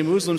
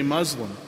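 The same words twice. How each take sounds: First: "Muslim" said MOOZ-lum; long oo pronunciation. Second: "Muslim" said MUZ-lum; short u pronunciation. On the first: Pastor quoting the opposing side of a naming dispute, long-oo pronunciation. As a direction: say "Muslim" with an oo as in moon. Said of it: "those that say Muslim". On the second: Pastor voicing what the other side objects to, short-u pronunciation. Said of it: "say you shouldn't say Muslim". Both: Shown as a demonstration.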